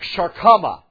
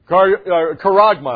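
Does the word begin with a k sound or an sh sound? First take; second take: sh sound; k sound. First: The word begins with an sh sound. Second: The word begins with a k sound. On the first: The speaker calls it wrong. "The Greek word is sharkama" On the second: The speaker calls it right. "Karagma, I should say. It's karagma. Better pronunciation"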